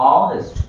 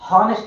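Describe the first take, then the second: First: The word begins directly with a vowel sound. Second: The word begins with an audible h sound. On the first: The speaker calls it right. "ఆనెస్ట్ హా అని అనం" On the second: The speaker calls it wrong. "హానెస్ట్ man అని అనం"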